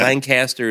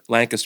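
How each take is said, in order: First: It is said the way Californians say it. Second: It is said the way locals say it. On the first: The speaker is not from the area. The speaker calls it wrong. "is what like Californians say" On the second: The speaker is from the area. The speaker calls it right. "is what we call it"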